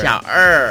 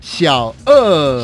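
First: 二 said with curled tongue, er; 二 with a clear retroflex r-colour. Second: 二 said flat like e, no curl; lazy 二 without the curled tongue; no retroflex er. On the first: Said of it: "要卷舌". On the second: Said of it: "就不卷舌". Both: Shown as a demonstration.

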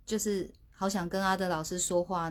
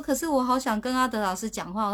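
First: Said in the usual way. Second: Pleading. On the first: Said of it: "我说可是我好想跟阿德老师讲话". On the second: Retold or imitated. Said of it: "我说".

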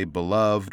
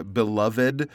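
First: "beloved" as be-LUVD; silent E ending. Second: "beloved" as be-LUV-id; stressed ED ending. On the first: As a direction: close "beloved" on a plain D, no extra syllable. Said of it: "but generally it's". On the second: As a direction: sound the ED of "beloved" as its own syllable. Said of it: "that kind of two-syllable". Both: Shown as a demonstration.

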